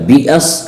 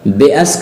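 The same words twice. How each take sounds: First: बिअस with a clear "bi" at the start; maroof vowel. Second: बेअस with an open "be" at the start; majhool vowel. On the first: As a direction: say बिअस with a true short i. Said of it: "कहेंगे तो मारूफ हो जाएगा". (बिअस, मारूफ आवाज़ में) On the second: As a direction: say बेअस wrongly, "be" for "bi". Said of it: "कहेंगे तो मजहूल हो जाएगा". (बेअस, मजहूल आवाज़ में) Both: Shown as a demonstration.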